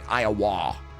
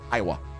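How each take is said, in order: First: The word is said with heavy emphasis. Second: The word is said plainly with light emphasis. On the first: "I'm putting too much emphasis on it" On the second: "You're supposed to just say Iowa"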